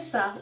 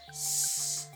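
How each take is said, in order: First: The s sound is followed by a short vowel. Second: The s sound is a bare hiss, no vowel. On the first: The speaker calls it wrong. "We don't say sa" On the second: The speaker calls it right. "we say s"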